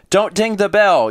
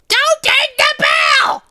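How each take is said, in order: First: It is read in a normal speaking voice. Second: It is shouted in a squeezed, strained character voice.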